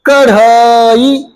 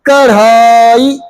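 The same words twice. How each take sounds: No difference in how they are said.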